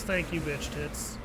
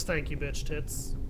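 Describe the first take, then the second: First: Softer, slow, offhand imitation of "Thank you, bitch tits."; very casual. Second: Softer, slow, offhand "Thank you, bitch tits."; most casual. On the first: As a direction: toss it off like it's nothing, lower and softer. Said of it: "And Patton just very casually goes". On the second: Retold or imitated. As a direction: drop it lower and softer as if nothing happened. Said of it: "Patton just with the most casual thing in the world".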